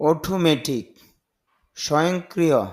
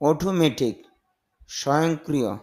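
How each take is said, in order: Both takes have the same delivery.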